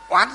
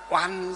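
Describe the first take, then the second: First: The first syllable has a rising tone. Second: The first syllable has a level tone. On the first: "chứ oán dấu sắc" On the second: "Trong nhà Phật chúng ta gọi là oan gia trái chủ"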